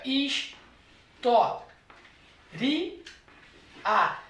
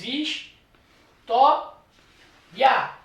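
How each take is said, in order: First: Is, to, ri, a as four syllables with ri and a apart. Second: Is, to, ya as three syllables with ya as one glide syllable. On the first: Teacher showing the hiatus split of a word, syllable by syllable. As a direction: split it into is, to, ri, a with a pause between each. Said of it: "ela também pode ter a seguinte divisão silábica". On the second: Teacher showing the diphthong split of a word, syllable by syllable. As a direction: break it into is, to, ya with a pause between each. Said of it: "separando o vocábulo história em sílabas". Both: Shown as a demonstration.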